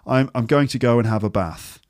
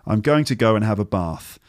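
First: It is spoken in a northern English accent. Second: It is spoken in a southern English accent. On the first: "someone with received pronunciation from the north of England might say" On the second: "in the south of England, you'd say"

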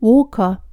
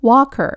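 First: Walker is said with an Australian vowel. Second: Walker is said with an American vowel.

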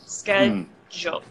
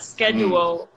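First: The middle consonant is a j sound. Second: The middle consonant is a plain d sound. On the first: The speaker calls it right. "it's always with a J sound" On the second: The speaker calls it wrong. "It's not with a D sound. It's not schedule"

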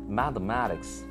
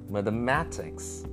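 First: The first syllable is stressed as well. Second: Only the second syllable carries the stress. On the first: "Some people give the stress to the first M-A as well" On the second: "The next second M-A should definitely get a stress"

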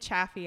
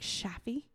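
First: The name begins with a hard ch sound. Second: The name begins with a soft sh sound. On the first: "I've been saying Chaffee" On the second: "sometimes is it like French or something and it's like"

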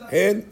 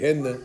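First: The word ends on the bare final consonant. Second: An extra vowel is sounded after the final consonant. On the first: The speaker calls it right. "It's not" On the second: The speaker calls it wrong. "They make a mistake. ... They move it"

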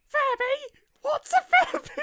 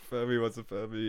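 First: It is said in Mister Widemouth's put-on voice. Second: It is said in the reader's normal voice.

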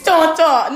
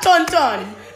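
First: The N sounds are not pronounced. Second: The N sounds are clearly pronounced. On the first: The speaker calls it right. "The N's don't make any sounds" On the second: The speaker calls it wrong. "not Tonton"

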